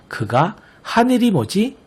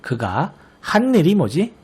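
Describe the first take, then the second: First: 한 일이 slowly linked as [하니리], single n; wrong reading without n-insertion. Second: 한 일이 slowly read as [한니리], doubled n; correct reading with n-insertion. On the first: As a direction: read 한 일이 as [하니리], slow, with no added ㄴ. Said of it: "이렇게 읽는 것이 아니라". (한 일이를 ㄴ 첨가 없이 [하니리]로 천천히 읽기) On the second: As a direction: hold the n in 한 일이, [한-니리], as one phrase. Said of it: "라고 읽어야 한다는 것". (한 일이를 ㄴ을 첨가해 [한니리]로 읽기) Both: Shown as a demonstration.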